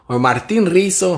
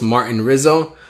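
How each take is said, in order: First: "Rizzo" said with a tapped r and a sharp s, ree-so; Spanish-style Rizzo. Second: Said in the usual way. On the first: Shown as a demonstration. Host rolling his name Spanish-style for the stream. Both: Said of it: "however you guys wanna call me".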